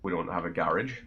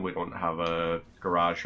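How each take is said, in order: First: GARAGE said GARR-idge, stress up front; local Irish garage. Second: GARAGE with stress on the second syllable, ga-RAHZH; standard garage. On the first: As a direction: rhyme GARAGE with carriage. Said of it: "I would say garage". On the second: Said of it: "Although I would say garage". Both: Shown as a demonstration.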